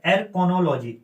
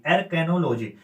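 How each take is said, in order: First: एरकोनोलॉजी, बीच में 'को' के साथ; पहले एरकोनोलॉजी बोलें, बीच का 'को' साफ़ रखें; पहला उच्चारण. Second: एरकेनोलॉजी, बीच में 'के' के साथ; एरकेनोलॉजी कहकर उच्चारण ठीक करें; सुधारा हुआ उच्चारण. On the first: (एरकोनोलॉजी, 'को' के साथ पहला रूप) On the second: (एरकेनोलॉजी, 'के' वाला सही रूप) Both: Shown as a demonstration.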